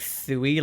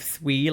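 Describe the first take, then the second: First: It sounds like the start of suicide. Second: It does not sound like the start of suicide. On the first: The speaker calls it wrong. "like suicide" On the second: The speaker calls it right. "instead of Sui"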